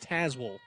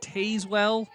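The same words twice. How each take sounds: First: The name is said the way locals say it. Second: The name is said the way a computer voice says it. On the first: The speaker calls it right. "No, it is Tazewell" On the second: The speaker calls it wrong. "how at least the Siri or whoever speaks on Google will announce it"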